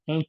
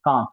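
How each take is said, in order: First: Cannes said like canes; English-style pronunciation. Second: Cannes with an open AH vowel; French-style pronunciation. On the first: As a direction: say Cannes with a long AY vowel. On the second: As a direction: say Cannes as kahns. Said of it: "the Cannes, we say". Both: Shown as a demonstration.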